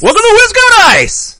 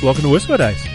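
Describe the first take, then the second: First: It is said loudly, with lots of excitement. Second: It is said flatly, with little excitement.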